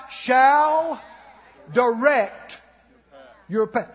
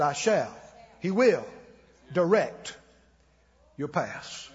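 First: Shall said loud, high and slow, set against might; stress on shall. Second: Said in the usual way. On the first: Shown as a demonstration. Correcting the reading for the congregation, stress on shall. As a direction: lean hard on shall. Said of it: "not might". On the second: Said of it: "He said".

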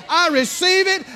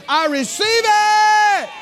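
First: Higher, eager claim; joyful receiving. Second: High, slow, loud shout of thanks; joyful shout. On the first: Believer claiming the gift, eager and higher. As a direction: say it gladly. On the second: Believer shouting thanks for God's gift, high and slow. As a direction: cry it out with full joy. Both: Retold or imitated. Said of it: "you rip the paper off and you say".

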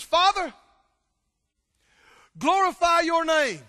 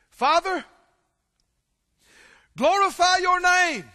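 First: High, loud cry to heaven; loud fervent prayer. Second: High, loud cry to the Father; loud fervent prayer. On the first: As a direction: call it out, full of awe. Jesus looks up, cries out. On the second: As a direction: lift it up as a ringing prayer. Jesus' prayer, voiced aloud. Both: Acted.

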